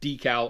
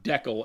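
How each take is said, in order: First: It is said the usual American way. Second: It is said the Canadian way. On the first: "That's a decal" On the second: "if you're in Canada"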